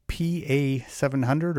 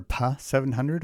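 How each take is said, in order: First: "P A" said as two separate letters; PA spelled out. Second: "Pa" said as one syllable; Pa as a word. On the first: Host offers one reading of a track title, "P A" as letters. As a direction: say "P A" letter by letter, then seven hundred. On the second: Host offers other reading of a track title, "Pa" as one word. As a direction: run "Pa" together as a single word, not two letters. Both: Shown as a demonstration. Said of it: "how you want to pronounce it".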